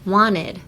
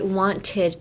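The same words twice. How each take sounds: First: The middle t sound is dropped, nearly silent. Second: The middle t sound is clearly pronounced. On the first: The speaker calls it right. "A T is kind of silent" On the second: The speaker calls it wrong. "You wouldn't say I wanted to"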